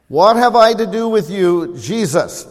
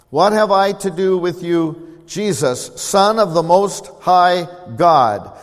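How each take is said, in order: First: Loud, high demon's cry to Jesus; a possessed man shouts at Jesus, louder and higher. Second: Demon's voice. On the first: Demon crying out to Jesus, louder and higher. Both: Acted. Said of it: "this is what they said to Jesus".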